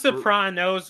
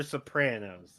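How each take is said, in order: First: Sopranos said so-PRAH-nos. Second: Sopranos said so-PRAN-os; short "a" as in cat in the middle of Sopranos. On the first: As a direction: say Sopranos with a broad "ah" in the middle. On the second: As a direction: say Sopranos with the "a" of apple. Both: Shown as a demonstration. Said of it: "Is this Sopranos or Sopranos".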